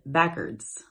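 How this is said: It is said in an old regional pronunciation. "they said backwards"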